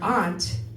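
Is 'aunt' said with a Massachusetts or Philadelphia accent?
Massachusetts. Aunt is said the Massachusetts way, like 'ahnt'.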